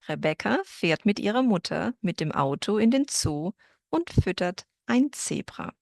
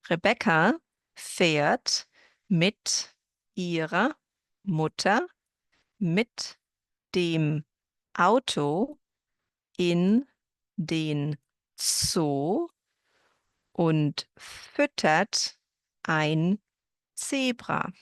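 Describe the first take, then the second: First: The sentence is spoken at a faster pace. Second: The sentence is spoken at a slower pace.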